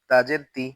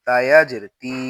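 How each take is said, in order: First: তি with a short i; no stretch. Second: তি with a long i; তি held long; stretched vowel. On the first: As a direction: cut the vowel of তি short. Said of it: "শুধু জের থাকলে টান দিব না". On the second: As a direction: draw out the vowel of তি. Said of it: "তখন জেরে টান দিব". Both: Shown as a demonstration.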